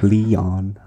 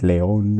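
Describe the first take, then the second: First: The name is said with an American accent. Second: The name is said with a Spanish accent. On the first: "I say it in a very American way" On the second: "there's Spanish people who say it Leon"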